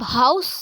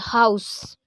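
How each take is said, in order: First: हाउस said with a clear h sound; pronounced house. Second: हाउस with the h voiced, falling; pronounced house. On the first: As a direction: say हाउस with a spoken h. (हाउस को एच की साफ़ आवाज़ के साथ बोलें) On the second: (हाउस, एच की आवाज़ के साथ, गिरते सुर में) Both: Shown as a demonstration. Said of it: "हम एच की प्रोनाउंसिएशन दे रहे हैं".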